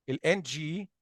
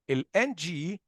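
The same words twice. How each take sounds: The two takes are said the same way.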